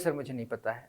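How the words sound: It sounds only slightly annoyed. The patience is starting to wear thin. "मेरा बोलने का लहजा थोड़ा देखिए बदल रहा है ना"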